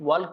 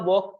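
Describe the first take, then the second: First: The word is said with an L sound. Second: The word is said without an L sound. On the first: The speaker calls it wrong. "वॉल्क नहीं कहेंगे" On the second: The speaker calls it right. "वॉक कहेंगे"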